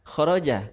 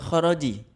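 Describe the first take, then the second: First: The word ends with the vowel a. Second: The word ends with the vowel i. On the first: The speaker calls it right. "yang mana adalah khoroja karena dia fi'il madhi" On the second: The speaker calls it wrong. "khoroju atau khoroji"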